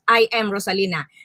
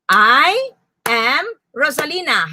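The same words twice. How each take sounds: First: Said in the usual way. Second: "I", "am", "Rosalina" each separated by a beat; word by word. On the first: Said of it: "how many words there are in the sentence". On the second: Shown as a demonstration. Teacher clapping out words for learners, "I am Rosalina" word by word. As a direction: say "I am Rosalina" one word per clap. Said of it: "Let us clap our hands".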